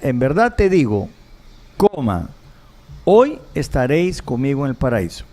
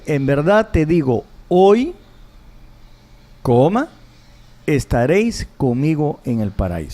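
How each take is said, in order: First: The pause comes before the word hoy. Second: The pause comes after the word hoy. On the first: Paradise will be reached that same day. "la coma en la primera es, en verdad te digo, coma" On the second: The promise is made today, paradise comes later. "Y en la otra dice, en verdad te digo, hoy, coma"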